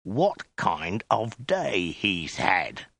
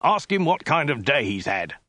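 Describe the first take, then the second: First: Extremely slow, word-by-word threat; drawn-out, hissed insistence; menacing hiss. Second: Higher, impatient soldier's command; brisk, irritated demand; snapped order. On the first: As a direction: spell it out slowly through menace. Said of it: "he hissed". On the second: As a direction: snap out the instruction. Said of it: "snapped the soldier". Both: A narrator's reading.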